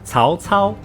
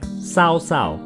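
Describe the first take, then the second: First: The C is said with the Mandarin pinyin sound. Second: The C is said with an English-style sound. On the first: The name means morality and self-discipline. The speaker calls it right. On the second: It carries rather naughty meanings in Chinese. The speaker calls it wrong.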